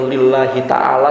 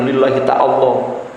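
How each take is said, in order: First: The last word ends in a plain 'ala'. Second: The last word ends with an added 'lah'.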